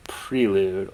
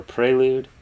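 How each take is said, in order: First: Prelude with a long ee first; Prelude, first syllable rhyming with "free"; pronounced PREE-lude. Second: Prelude with an ay first; Prelude, first syllable rhyming with "day"; pronounced PRAY-lude. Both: Shown as a demonstration. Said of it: "pronounce that word".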